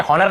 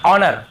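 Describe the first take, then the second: First: "हॉनर" with an audible H at the start; wrong pronunciation. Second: "ऑनर" starting on the vowel, H silent; correct pronunciation. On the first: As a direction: lead "हॉनर" with a clear h, as hon-er. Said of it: "हॉनर नहीं पढ़ते हैं". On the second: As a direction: say "ऑनर" firmly as on-er, no h. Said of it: "हम इसे क्या पढ़ते हैं". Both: Shown as a demonstration.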